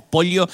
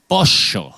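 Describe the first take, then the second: First: "pollo" with ll said as ly, polyo; standard ll. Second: "pollo" said posho, ll as a sharp sh, falling; Argentine sh. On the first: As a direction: neutral "pollo", ll like li. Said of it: "si decimos pollo sentimos que nos comemos". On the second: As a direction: Rioplatense "pollo" with sh sound, a bit louder. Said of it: "Los argentinos decimos". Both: Shown as a demonstration.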